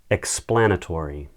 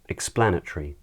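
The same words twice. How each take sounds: First: It is said in an American accent. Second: It is said in a British accent.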